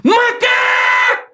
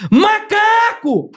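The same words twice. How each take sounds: First: Very high, long-drawn scream; loud tic shout. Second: High, long-drawn cry held back in volume; restrained demo of a drawn-out shout; toned-down tic yell. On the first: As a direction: yell it out high and stretch it. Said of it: "Só que é alto, tá ligado?". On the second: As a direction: stretch it out high without fully yelling. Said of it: "Isso é baixinho, né? Pra não atrapalhar". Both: Shown as a demonstration.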